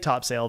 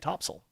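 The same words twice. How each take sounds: First: The name is pronounced just as it is spelled. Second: The name is pronounced the way locals say it. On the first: The speaker calls it wrong. "If you say Topsail" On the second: The speaker calls it right. "they will all correct you and say Topsail"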